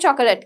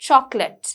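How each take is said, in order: First: The middle o vowel is clearly pronounced. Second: The middle o vowel is silent. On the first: The speaker calls it wrong. "එතකොට අපි කියන්න පුරුදු වෙන්නේ chocolate කියලා" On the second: The speaker calls it right. "හැබැයි ඇත්ත වචනේ ඇවිල්ලා chocolate. The O is very silent"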